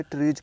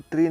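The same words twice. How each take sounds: First: ट्रीज closed with a voiced j sound; correct plural reading. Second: ट्री ending on a long ee, no final j sound; wrong reading. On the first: Teacher correcting the reading for learners, ट्रीज with a final j sound. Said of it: "ट्रीज पढ़ेंगे". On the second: Teacher showing learners the reading to avoid, ट्री with no end consonant. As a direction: say ट्री bare, without the plural ending. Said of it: "इसको ट्री नहीं पढ़ेंगे". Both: Shown as a demonstration.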